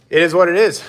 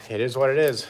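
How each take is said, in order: First: Higher and louder, a shrugging declaration; loud resigned shrug. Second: Said in the usual way. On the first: Real, not acted. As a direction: belt out the shrug.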